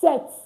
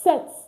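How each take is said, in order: The two takes are said the same way.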